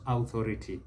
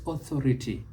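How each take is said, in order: First: Authority with an opening OW sound; mispronunciation. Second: Authority with an opening AW sound; correct pronunciation. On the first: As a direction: say authority starting like "out". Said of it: "not authority". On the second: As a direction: say authority starting with "aw". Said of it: "must not mispronounce is authority". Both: Shown as a demonstration.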